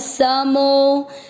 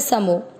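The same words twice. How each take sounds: First: The final vowel is stretched out long. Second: The final vowel is short and plain. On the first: "अवग्रह आते ही आपको इस तरह से खींचना है" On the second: "एक तो हम बोलते समो"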